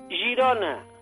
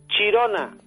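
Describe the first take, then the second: First: The word begins with a soft zh sound. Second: The word begins with a hard ch sound. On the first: The speaker calls it right. "Se debe decir Girona, con la Y, que es un sonido que no hay en lengua española" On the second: The speaker calls it wrong. "no digan Chirona, porque Chirona es la cárcel"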